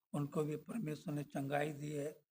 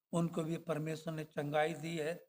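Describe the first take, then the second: The two takes are said the same way.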